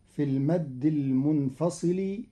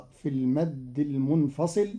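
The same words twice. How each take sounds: The two takes are said the same way.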